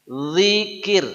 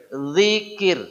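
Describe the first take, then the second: The two takes are said the same way.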